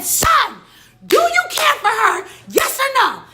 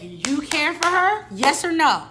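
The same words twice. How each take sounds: First: Very high, loud angry yell; re-enacted furious outburst at full pitch; mad shouting. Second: Raised, slow, pointed demand; loud, high-pitched retold confrontation; getting mad. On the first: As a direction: explode into a shouted demand for an answer. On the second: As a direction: press for an answer with rising anger. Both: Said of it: "Then I start getting mad".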